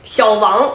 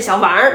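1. 它结尾很平，没有儿化。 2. 它结尾是儿化的'er'音。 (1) "小王那不是叫人呢，那个是扑克牌里边那猫" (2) "你要有儿化音是小王"

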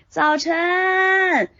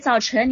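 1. 这段叫声拖长了，速度很慢。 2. 这段叫声说得很快，速度更快。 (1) "我刚才是做的示范是慢速" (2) "我加速呢"

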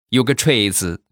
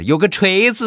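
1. 这句话带有浓重的地方方言口音。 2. 这句话的发音更平实，方言味较淡。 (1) "应该是" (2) "我这发音是不是不大标准？"

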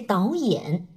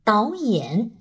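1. 第一个音节平稳上升，像阳平一样。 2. 第一个音节平稳上升，像阳平一样。

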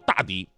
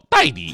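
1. 第一个音节读作 da。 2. 第一个音节读作 dai。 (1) "他根本就不叫大迪" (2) "那个大是多音字，又念戴"

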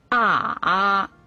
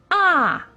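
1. 音高先降到低处，然后升上来。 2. 音高从高急速降到低。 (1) "三声拐弯" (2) "四声降"

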